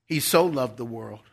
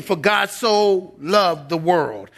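First: Quiet, "so" gently leaned on; soft stress on so. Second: Slow, leaning hard on "so"; stress on so. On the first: Preacher savoring the verse softly, tender "so". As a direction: hush it and let "so" linger in "He so loved the world". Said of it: "the adverb so gives the word love some punch". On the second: Preacher quoting John to show how much God loved, stressing "so". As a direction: draw out "so" in "For God so loved the world", slow and weighty. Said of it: "didn't just love the world, but he so loved". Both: Shown as a demonstration.

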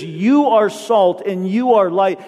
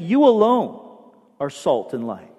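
First: Said in the usual way. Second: "You alone" lifted, then a pause before "are salt and light"; stress on alone. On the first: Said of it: "it's emphatic". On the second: Shown as a demonstration. Pastor drives home Jesus' meaning, stressing "alone". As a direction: lean on "alone" and let it hang. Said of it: "meaning that he's saying".

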